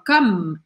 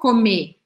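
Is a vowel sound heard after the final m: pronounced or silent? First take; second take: silent; pronounced. First: The word stops at the m with no vowel. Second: A vowel sound is pronounced after the final m. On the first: The speaker calls it right. "eu falo come. Eu paro na letra M" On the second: The speaker calls it wrong. "eu não falo comer"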